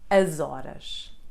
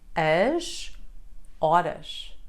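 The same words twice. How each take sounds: First: The final S runs into the following vowel. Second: The two words are said apart, without linking. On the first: "When reading them together ... That's why it sounds like" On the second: "When separated, we read them as"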